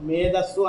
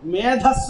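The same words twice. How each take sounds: First: The middle consonant is unaspirated. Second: The middle consonant is aspirated. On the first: The speaker calls it right. "ఒత్తు లేదు మేధస్సు అనాలి" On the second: The speaker calls it wrong. "మనం మామూలుగా మేధస్సు అంటాం"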